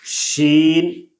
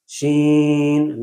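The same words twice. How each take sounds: First: Said in the usual way. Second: شین with the long vowel sent through the nose; nasalized vowel. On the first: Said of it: "یہ بالکل غلط ہے". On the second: Shown as a demonstration. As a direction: draw out شین nasally, the wrong way. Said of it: "ناک میں آواز جا رہی ہے".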